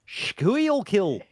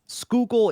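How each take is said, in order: First: The name is sounded out letter by letter. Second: The name is said in its local form. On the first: The speaker calls it wrong. "it's written like Squealkill" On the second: The speaker calls it right. "Schuylkill is how it's pronounced"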